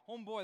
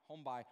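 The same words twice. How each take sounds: First: Said in the usual way. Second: Put-on "by" for boy, Newfie style; Newfoundland accent. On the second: Shown as a demonstration. Preacher showing the congregation his Newfie homeboy, Newfoundland accent. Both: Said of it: "that was the newfie".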